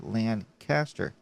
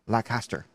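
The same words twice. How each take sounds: First: The N sound in the first syllable is pronounced. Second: The N sound in the first syllable is dropped. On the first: The speaker calls it right. "morally wrong not to put the N in there" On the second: The speaker calls it wrong. "not Lancaster"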